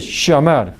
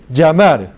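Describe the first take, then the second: First: "llamar" starting with a sh sound, "shamar". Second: "llamar" starting with a hard dj, "djamar"; dj sound. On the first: Teacher models "llamar" the Rioplatense way. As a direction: open "llamar" with sh, Argentine style. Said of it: "O como shit". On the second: Teacher models "llamar" with the hard dj sound. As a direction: open "llamar" with a j like jungle. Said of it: "como jungle". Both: Shown as a demonstration.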